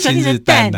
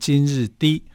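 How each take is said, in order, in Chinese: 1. 最后一个音节读起来像 dan。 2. 最后一个音节读起来像 di。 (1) "或者今日单啊" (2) "它是念今日低"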